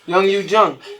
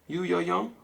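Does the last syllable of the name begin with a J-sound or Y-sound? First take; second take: J-sound; Y-sound. First: The last syllable begins with a j sound. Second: The last syllable begins with a y sound. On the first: The speaker calls it right. "J's are J's. My fault" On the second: The speaker calls it wrong. "because their J's are Y's"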